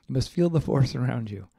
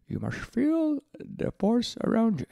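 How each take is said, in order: First: Said in the usual way. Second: High, slow squeezed little alien voice; a bad Yoda, pitched way up and slow; Yoda impression. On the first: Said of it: "That sounds even worse". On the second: Quoting Yoda to listeners, high slow Yoda voice. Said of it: "Or perhaps Yoda".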